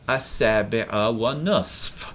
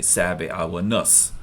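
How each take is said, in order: First: The final f sound is clearly pronounced. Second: The final f sound is dropped. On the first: This matches how the word is written. "I had to kind of articulate it there to remember to say it" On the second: This is how almost everyone actually says it. "everyone will say sabi awa nus"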